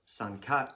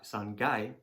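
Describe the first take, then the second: First: The counter begins with a k sound. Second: The counter begins with a g sound. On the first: "instead of kai" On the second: "can also be gai"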